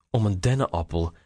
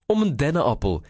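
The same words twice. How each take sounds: First: A touch of mirth, held back; mild amused disbelief. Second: Higher, amused echo; grinning. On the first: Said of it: "Eduard proestte het uit". (licht geamuseerd, ingehouden) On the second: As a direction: say it with an audible grin, pitched up. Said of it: "grijnsde Reinier". (grijnzend, met hogere stem) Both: A narrator's reading.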